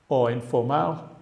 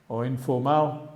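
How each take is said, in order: The two takes are said the same way.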